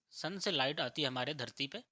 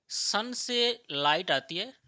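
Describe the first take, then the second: First: Said in the usual way. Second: सन से light आती है said loud and slow, हर शब्द पर ज़ोर; slow emphatic stress. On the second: Shown as a demonstration. Teacher drilling the class on sunlight, loud and slow. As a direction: drag it out loudly so students catch it.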